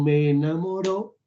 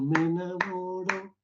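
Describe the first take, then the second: First: The stress falls on the final syllable 'ro'. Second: The stress falls on the syllable 'mo'. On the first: The speaker calls it wrong. "es como si tuviese tilde. Hay mucho acento sobre esa O" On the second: The speaker calls it right. "Entonces debe ser cuando me enamoro"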